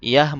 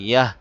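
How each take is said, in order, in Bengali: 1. শব্দটি একটি খোলা 'ah' স্বরধ্বনিতে শেষ হয়। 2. শব্দটি একটি খোলা 'ah' স্বরধ্বনিতে শেষ হয়।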